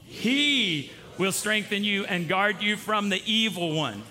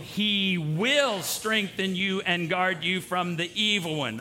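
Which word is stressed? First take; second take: he; will. First: The word 'he' is stressed. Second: The word 'will' is stressed. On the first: "Do the whole thing and then emphasize he" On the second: "now we're going to say will"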